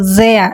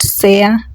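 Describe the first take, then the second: First: The word begins with a voiced z sound. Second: The word begins with a voiceless s sound. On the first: The speaker calls it right. "It has to be a Z sound" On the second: The speaker calls it wrong. "not sehr"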